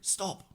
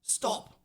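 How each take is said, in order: First: The word is said in a whisper. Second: The same.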